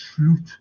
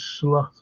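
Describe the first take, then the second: First: The vowel is a long 'oo' sound. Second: The vowel is a short 'o' sound. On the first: The speaker calls it right. "it's slute" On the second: The speaker calls it wrong. "the pronunciation of slot isn't slot"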